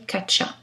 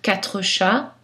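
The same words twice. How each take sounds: First: Quatre is reduced, dropping a consonant. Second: Quatre is said in full with all consonants. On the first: This is a casual, conversational pronunciation. "une prononciation informelle, plus conversationnelle" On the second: This is a neutral pronunciation. "c'est une prononciation neutre"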